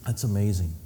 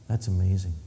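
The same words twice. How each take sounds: The two takes are said the same way.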